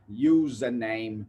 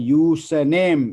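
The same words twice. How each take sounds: First: It is pronounced the standard English way. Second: It is pronounced the Sri Lankan way. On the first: The speaker calls it right. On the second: The speaker calls it wrong.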